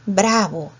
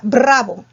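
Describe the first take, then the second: First: "Bravo" with one light tap of the r; single-tap R. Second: "Bravo" with a strong rolled r, brrravo; trilled R. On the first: Teacher reading back the corrected word, "Bravo" with a single-tap r. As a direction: say "Bravo" with a simple, unrolled r. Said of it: "Es una vibrante simple". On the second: Teacher showing students the wrong sound, "Bravo" with a rolled r. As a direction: roll the r hard in "Bravo". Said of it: "si le coloca bra-, barra, ¿qué diría?". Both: Shown as a demonstration.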